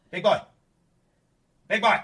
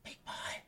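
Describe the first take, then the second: First: Loud high call. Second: Hushed whisper of his name. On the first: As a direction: call the cat across the room. Calling the cat loudly. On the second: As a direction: whisper to call him. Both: Real, not acted.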